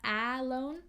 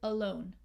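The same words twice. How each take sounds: First: The first vowel is a short A. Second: The first vowel is a schwa. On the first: The speaker calls it wrong. "Not alone, short A, a cat, no" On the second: The speaker calls it right. "So here also a schwa"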